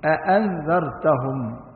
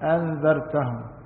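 First: Both glottal stops are fully pronounced. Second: The second glottal stop is dropped entirely. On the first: The speaker calls it right. "هذا خطأ، أأنذرتهم" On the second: The speaker calls it wrong. "يأكل الهمزة الثانية"

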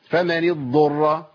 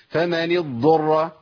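The two takes are said the same way.

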